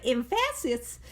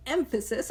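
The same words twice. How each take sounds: First: Emphasis said as em-FASS-is, second syllable stressed; misplaced stress in emphasis. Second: Said in the usual way. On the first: Shown as a demonstration. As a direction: jokingly shift the stress in emphasis onto the middle syllable. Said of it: "You put the wrong emphasis". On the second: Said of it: "I was gonna say emphasis".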